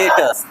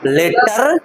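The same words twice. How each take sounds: First: "लेटर्स" with the R dropped before the S; silent-R pronunciation. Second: "लेटर" with a hard, sounded R at the end; wrong sounded-R pronunciation. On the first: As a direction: say "लेटर्स" as "LAY-tuhs", no R sound. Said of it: "हम इसको पढ़ते हैं लेटर्स". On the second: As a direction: say "लेटर" as "LAY-tarr", R fully pronounced. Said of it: "लेटर नहीं पढ़ते हैं". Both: Shown as a demonstration.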